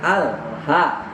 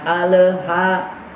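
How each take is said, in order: First: The l sound stops dead with no bounce. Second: The l sound has an echoing bounce. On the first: The speaker calls it right. "langsung mati saja dimatikan" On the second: The speaker calls it wrong. "jangan al ha"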